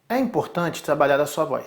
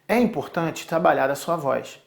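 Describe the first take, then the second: The two takes are said the same way.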